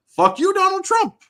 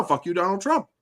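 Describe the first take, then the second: First: High, loud angry curse; defiant outburst. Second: Said in the usual way. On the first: Real, not acted. Gamer disagreeing with Trump on video games, loud defiant outburst.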